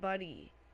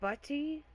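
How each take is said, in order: First: The middle sound is a slack, D-like flap. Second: The middle sound is a crisp, enunciated T.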